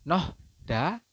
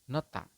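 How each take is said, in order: First: The middle sounds like h followed by d. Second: The middle sounds like an aspirated t. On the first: The speaker calls it wrong. "di sini ada Nohda" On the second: The speaker calls it right. "tetapi Anda di sini membacanya adalah nota"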